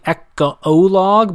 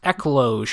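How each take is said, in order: First: The word has a pause between its syllables. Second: The word is said smoothly without a pause. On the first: The speaker calls it wrong. "like I'm reading it like there's a pause" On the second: The speaker calls it right. "but it's just ecloge"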